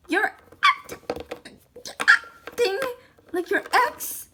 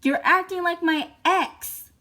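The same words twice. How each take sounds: First: Mocking mimic. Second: Said in the usual way. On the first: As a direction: parrot the son back teasingly. Mom mimics son's complaint. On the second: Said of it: "echoed mockingly".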